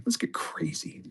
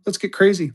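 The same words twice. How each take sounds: First: Breathy secret whisper. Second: Said in the usual way. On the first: Pretend. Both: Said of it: "repeated as whisper".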